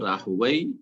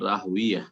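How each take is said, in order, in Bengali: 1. নামটি '-ayh' ধ্বনিতে শেষ হয়। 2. নামটি '-iya' ধ্বনিতে শেষ হয়। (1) "এটা হচ্ছে একটি উচ্চারণ এই রাহওয়াই শব্দটির" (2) "আর আরেকটি হচ্ছে"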